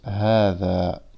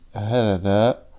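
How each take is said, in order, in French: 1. La voyelle après le h est longue. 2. La voyelle après le h est brève. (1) "mais on le prononce hada" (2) "on l'écrit hada"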